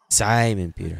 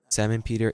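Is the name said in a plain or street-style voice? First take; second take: street-style; plain. First: It is said in an exaggerated street-style voice. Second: It is said in a plain reading voice.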